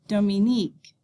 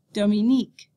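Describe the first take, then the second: First: Dominique again, do-mi-NEEK, even rhythm; final stress repeated. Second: Dominique as do-mi-NEEK, stress on the end; final syllable stress. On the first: Teacher repeating Dominique for the class, final stress. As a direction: echo Dominique, last syllable stressed. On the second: Teacher modelling Dominique in French, final stress. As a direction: say Dominique evenly, weight on nique. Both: Shown as a demonstration.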